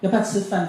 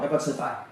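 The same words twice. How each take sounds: First: It is said in an exaggerated baby-talk way. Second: It is said in a plain, normal adult way.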